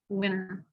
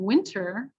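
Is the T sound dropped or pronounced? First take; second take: dropped; pronounced. First: The T after N is dropped. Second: The T after N is clearly pronounced. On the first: The speaker calls it wrong. "we'll say winter" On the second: The speaker calls it right. "instead of hearing winter"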